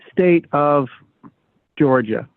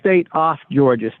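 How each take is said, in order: First: The word 'of' ends with a V sound. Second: The word 'of' ends with an F sound. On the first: The speaker calls it wrong. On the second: The speaker calls it right.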